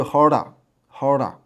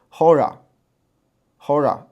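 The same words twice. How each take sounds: First: Horda 带弹音，舌尖颤一下; hora with trill. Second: Hora 不卷舌，慢慢读出 r 音; hora without trill. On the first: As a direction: roll the r in horda. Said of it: "那你要发那个弹音就是". (发弹音读 horda) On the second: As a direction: say hora slowly, plain r, no trill. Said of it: "你不发弹音就是". (不发弹音，慢读 hora) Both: Shown as a demonstration.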